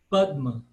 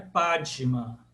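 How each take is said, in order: First: The d is said with no vowel after it. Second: The d is followed by a short vowel sound. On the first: The speaker calls it right. "D mudo" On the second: The speaker calls it wrong. "Não é Padma"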